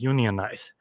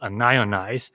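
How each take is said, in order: First: It sounds like union-ize, starting with 'union'. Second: It sounds like un-ionize, with 'an' first. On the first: A plumber says it, meaning form a union. "A plumber might pronounce this as" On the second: A chemist says it, meaning not ionized. "a chemist might pronounce this as"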